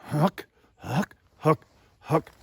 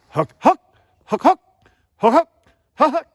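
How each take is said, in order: First: Single HOOK grunts at the lower note; short, separate HOOK syllables in the low inflection. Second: HOOK jumping up high and loud; higher second note. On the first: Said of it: "take that lower voice inflection". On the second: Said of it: "I'm actually higher in making my pitch, my second note". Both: Shown as a demonstration.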